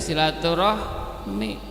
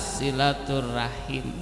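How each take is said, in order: First: The word ends with the sounds 'rahmi'. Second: The word ends with the sounds 'rahim'. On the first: This is the form shaped by Indonesian speech. The speaker calls it wrong. "Diucapkan dalam lidah bahasa Indonesia" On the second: This is the proper Arabic form. The speaker calls it right.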